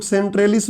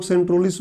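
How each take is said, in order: First: सेंट्रेलिस with an "ay" vowel after the "tr"; variant pronunciation. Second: सेंट्रोलिस with an "o" vowel after the "tr"; variant pronunciation. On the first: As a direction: say सेंट्रेलिस, middle syllable "tray". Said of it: "कुछ लोग सेंट्रेलिस बोलते हैं". (सेंट्रेलिस, बीच में "ए" की मात्रा वाला उच्चारण) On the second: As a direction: say सेंट्रोलिस, middle syllable "tro". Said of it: "कुछ लोग सेंट्रोलिस बोलते हैं". (सेंट्रोलिस, बीच में "ओ" की मात्रा वाला उच्चारण) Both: Shown as a demonstration.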